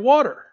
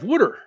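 First: The word is said in a standard accent. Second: The word is said in a Philadelphia accent. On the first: "instead of water" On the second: "from Philly. ... Where we have water"

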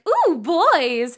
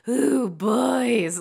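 First: The voice rises and sounds bubbly and light. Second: The voice drops low and sounds guttural. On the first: The character sounds innocently boy-crazy. "A boy crazy role is like" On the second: The character sounds predatory and menacing. "it drops down and gets very, like, guttural"

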